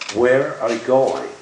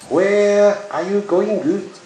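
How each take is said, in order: First: It is said in a plain accent. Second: It is said in a strong Japanese accent. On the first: "this particular sentence should be very easy for you to understand" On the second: "they would sound like this"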